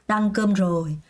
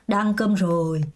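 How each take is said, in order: No difference in how they are said.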